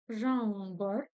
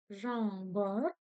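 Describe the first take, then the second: Both takes have the same delivery.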